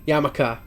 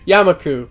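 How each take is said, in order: First: The name ends with an 'ah' vowel. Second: The name ends with an 'oo' vowel. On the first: The speaker calls it wrong. "I've been pronouncing that wrong my entire life" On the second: The speaker calls it right. "got it"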